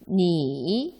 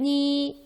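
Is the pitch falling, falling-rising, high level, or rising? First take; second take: falling-rising; high level. First: The pitch dips low, then rises. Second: The pitch stays high and level. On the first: "삼성으로는" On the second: "일성으로 표기하면"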